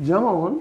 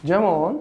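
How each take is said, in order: The two takes are said the same way.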